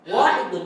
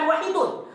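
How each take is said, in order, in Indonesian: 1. Vokal pertama dibaca panjang. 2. Vokal pertama dibaca pendek. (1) "Panjang wa dia"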